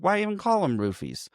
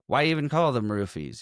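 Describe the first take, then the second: First: Higher-pitched, insistent repeat; repeating more pointedly. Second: Said in the usual way. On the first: Retold or imitated. Podcaster retelling a character asked what he said, higher pointed repeat. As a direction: lift the whole question as if asked to repeat it.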